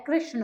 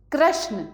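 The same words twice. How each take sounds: First: Said in the usual way. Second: कृष्ण said as "krashna"; higher कृष्ण rhyming with "prashna"; wrong ra sound. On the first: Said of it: "कृष्ण होता है". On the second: Shown as a demonstration. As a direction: swap the "ri" of कृष्ण for "ra". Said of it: "कृष्ण नहीं होता है".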